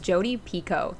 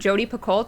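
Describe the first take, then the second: First: The surname ends with a plain 'oh' vowel. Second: The surname ends with an 'L-T' sound. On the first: The speaker calls it right. "that's how she pronounces her own name" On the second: The speaker calls it wrong. "we've always called her"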